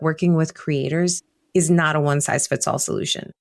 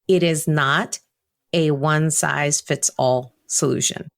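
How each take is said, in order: First: It is said at normal speed. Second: It is said slowly.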